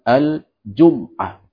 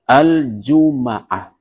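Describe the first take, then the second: First: The m is followed by no vowel. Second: The m is followed by an a vowel. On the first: "dengan mensukun huruf mim" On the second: "dengan memfathah huruf mim"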